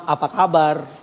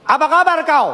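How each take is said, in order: First: Gentle tone. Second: "Apa kabar kau?" said high and hard, Batak style; blunt Batak greeting with a harsh tone. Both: Shown as a demonstration. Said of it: "beda nada".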